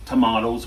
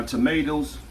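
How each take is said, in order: First: "tomatoes" with an open AH in the middle; British-style "tomatoes", middle vowel AH. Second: "tomatoes" with a long A, as in "may"; American-style "tomatoes", middle vowel AY. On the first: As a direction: say "tomatoes" as tuh-MAH-doze. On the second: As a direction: say "tomatoes" as tuh-MAY-doze. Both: Shown as a demonstration. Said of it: "whatever you wanna call 'em".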